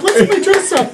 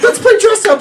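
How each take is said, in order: First: Put-on high, sing-song little kid; squeaky childish repeat. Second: Put-on high, loud giggly little kid; child voice. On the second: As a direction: squeal it like an excited four-year-old. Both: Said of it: "like four-year-olds".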